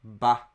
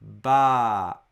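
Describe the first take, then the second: First: Ba clipped to one beat; a quick single-beat ba; short ba. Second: Ba held for two beats, louder; long ba. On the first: Teacher showing students a one-mora syllable. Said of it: "If I just say ba". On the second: Teacher showing students a two-mora long vowel. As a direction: stretch ba into baa. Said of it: "But if I say ba". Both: Shown as a demonstration.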